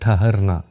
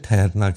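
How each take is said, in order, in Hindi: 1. पहला स्वर खुला 'a' ध्वनि है। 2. पहला स्वर 'e' की ओर आगे झुका हुआ है। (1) "असल लफ्ज़ है ठहरना" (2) "लेकिन हम इसे ठहरना कहते हैं"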